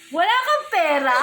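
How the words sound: It is said in a surprised tone.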